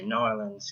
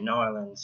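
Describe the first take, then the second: First: It is said in a Southern accent. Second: It is said in a Southern accent.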